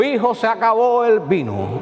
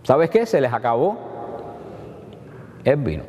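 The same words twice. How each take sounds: First: Higher, slow, stiff solemn declaration; a pompous, solemn announcement to her son; mock solemn. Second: A mother's offhand, confiding word; a mother's aside to her son that the wine has run out; casual confiding. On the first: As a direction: proclaim it like an overly formal reading. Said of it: "¿Ustedes creen que le dijo eso?". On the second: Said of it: "¿Qué le dijo María?". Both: Shown as a demonstration.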